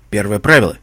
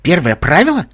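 First: "правило" firm, announcing, ending on a fall; stated as a rule. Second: "правило" pitched high, rising into a question; incredulous question with "правило" going up; questioning echo. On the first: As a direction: lay down "правило" as a command. Villain lays down rule, then echoed. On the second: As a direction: echo it back, lifting "правило" in disbelief. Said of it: "спросил Вундерболт". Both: A narrator's reading.

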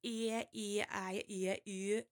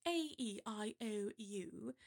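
First: Vowels recited in a mock Geordie accent, louder; exaggerated Geordie vowel demo. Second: Vowels recited in received pronunciation; crisp RP vowel demo. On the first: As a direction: make every vowel sound alike in Geordie. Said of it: "with the Geordies, it's like". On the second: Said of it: "with received pronunciation". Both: Shown as a demonstration.

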